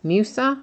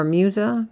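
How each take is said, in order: First: Musa said with a hissed S sound, "MYOO-suh". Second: Musa said with a buzzed Z sound, "MYOO-zuh". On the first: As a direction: say the middle of Musa as S, not Z. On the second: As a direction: say the middle of Musa as Z, not S. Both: Shown as a demonstration. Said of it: "is that gonna be pronounced".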